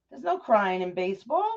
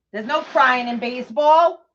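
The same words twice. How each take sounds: First: Said in the usual way. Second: A touch louder, drawn-out movie coach line; movie line quote. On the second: Retold or imitated. Mom quoting the baseball coach line to viewers, mild mock bark. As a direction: quote the famous coach line slowly, half-hammed. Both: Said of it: "Best line in the movie".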